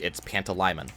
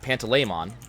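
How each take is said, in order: First: The ending does not sound like Pokemon's 'mon'. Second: The ending sounds like 'mon' in Pokemon. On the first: The speaker calls it right. "According to the audiobook" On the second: The speaker calls it wrong. "I always pronounced in my head was Pant- uh, Pantaleimon. That's how I pronounced it"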